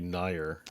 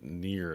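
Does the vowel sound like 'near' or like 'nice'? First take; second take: nice; near. First: The vowel sounds like the vowel in 'nice'. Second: The vowel sounds like the word 'near'. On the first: The speaker calls it right. "Like think of nice, right? N I C E, nice" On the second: The speaker calls it wrong. "Why is it near?"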